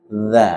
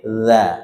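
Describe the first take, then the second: The two takes are said the same way.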